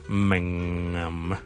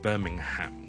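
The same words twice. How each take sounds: First: The h in the last syllable is silent. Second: The h in the last syllable is pronounced. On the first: The speaker calls it right. "我哋就读成咧Birmingham，听到咗" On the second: The speaker calls it wrong. "就唔需要咧系读成Birmingham 嘅"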